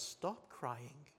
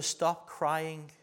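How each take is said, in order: First: Softer, hushed "Stop crying"; Jesus softly telling the widow to stop crying; gentle command. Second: Said in the usual way. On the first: Retold or imitated. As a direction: say "Stop crying" quietly and tenderly to a grieving mother. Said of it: "looks at this dear woman and says". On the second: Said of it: "And Jesus says to her".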